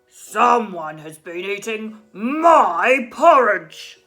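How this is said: It is said in a big, cross voice.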